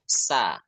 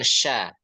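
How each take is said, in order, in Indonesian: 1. Suku kata ini diawali bunyi 's'. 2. Suku kata ini diawali bunyi 'sh'. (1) "tapi sa" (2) "Jangan sya"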